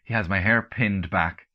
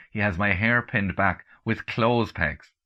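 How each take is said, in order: First: Said in the usual way. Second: "clothes pegs" drawn out slowly as the punchline; slow, deliberate reveal. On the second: A narrator's reading.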